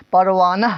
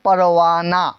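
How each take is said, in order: First: Teacher showing learners the mistake, پروانہ with a breathed h at the end; wrong audible final h. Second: پروانہ ending in a long open "naa"; silent final h. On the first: Teacher rejects this reading of the word, پروانہ ending in audible h. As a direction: sound the last ہ of پروانہ as an h. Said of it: "نہ نہیں کہتے". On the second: Teacher models correct reading, پروانہ with no final h. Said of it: "کیا بولتے ہیں؟". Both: Shown as a demonstration.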